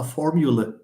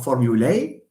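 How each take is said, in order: First: The final vowel is a reduced schwa. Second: The final vowel is a full vowel. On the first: "or just a formula?" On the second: "Do you pronounce this as a formulae"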